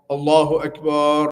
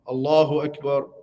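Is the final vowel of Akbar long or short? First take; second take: long; short. First: The last vowel of Akbar is stretched long. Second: The last vowel of Akbar is kept short. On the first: Akbar becomes a word for a drum. The speaker calls it wrong. "they put the extension at the end" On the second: It states that God is the greatest. The speaker calls it right.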